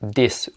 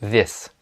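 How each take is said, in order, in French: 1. Il commence par un son d. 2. Il commence par un son th. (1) "il y a des gens qui le prononcent this" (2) "au lieu de this"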